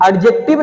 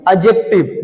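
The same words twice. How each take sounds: First: एडजेक्टिव with the D sounded before J; wrong pronunciation. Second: एडजेक्टिव lower, with the D silent; correct pronunciation. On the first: Teacher shows what not to say, wrong pronunciation. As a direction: hit the "d" in एडजेक्टिव. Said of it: "एडजेक्टिव नहीं". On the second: Teacher gives students the right form, correct pronunciation. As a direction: go straight to "j" in एडजेक्टिव. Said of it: "डी को silent रखो". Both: Shown as a demonstration.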